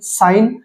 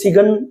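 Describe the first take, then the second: First: The g is silent. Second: The g is pronounced. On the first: The speaker calls it right. "हम इसको साइन बोलते हैं" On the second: The speaker calls it wrong. "इसको कोई सिगन या ऐसा कुछ नहीं बोलते"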